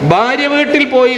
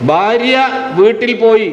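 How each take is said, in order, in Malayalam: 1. ആദ്യത്തെ രണ്ടു വാക്കുകൾ ഇടവേളയില്ലാതെ ഒന്നിച്ചു പറയുന്നു. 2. ആദ്യ വാക്കിന് ശേഷം ചെറിയ ഇടവേളയുണ്ട്. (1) "നിങ്ങൾ ഇന്നലെ എവിടെ പോയിരുന്നു? ഭാര്യ വീട്ടിൽ പോയിരുന്നു" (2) "എൻ്റെ ഭാര്യ എന്നാൽ അവളെ വീട്ടിലേക്ക് പോയി എന്നാണ് ഉദ്ദേശം"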